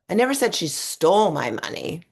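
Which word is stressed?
stole. The stress falls on the word 'stole'. It was only borrowed. "I think she just borrowed it"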